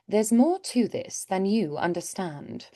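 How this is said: It is said in an aloof British accent.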